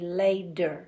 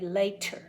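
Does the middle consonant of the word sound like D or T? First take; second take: D; T. First: The middle consonant is a soft D-like sound. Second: The middle consonant is a crisp T sound. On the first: "We say later" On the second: "We usually do not say later"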